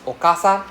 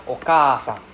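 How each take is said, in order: First: Okasan with a short, quick KA. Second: Okasan with a drawn-out KA; long A. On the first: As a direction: keep the middle A of Okasan short. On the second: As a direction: hold the middle A of Okasan long. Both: Shown as a demonstration. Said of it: "you can hear the difference".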